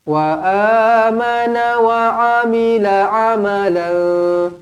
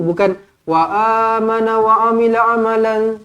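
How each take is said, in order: First: It is recited slowly and evenly. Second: It is recited quickly and rushed.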